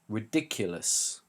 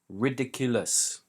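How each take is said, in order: First: The stress is on the second syllable. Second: All syllables are stressed about equally. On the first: The speaker calls it right. "We put the stress on the second syllable" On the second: The speaker calls it wrong. "the pronunciation I gave is not correct"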